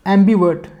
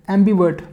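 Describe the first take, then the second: No difference in how they are said.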